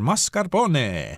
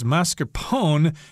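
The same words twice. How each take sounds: First: The final E is pronounced aloud. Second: The final E is left silent. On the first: It follows the Italian way. The speaker calls it right. "in Italian, uh, you should pronounce the E there" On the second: It follows English spelling rules. The speaker calls it wrong. "that would follow English pronunciation rules. O N E would leave the E at the end silent"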